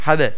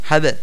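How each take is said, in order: No difference in how they are said.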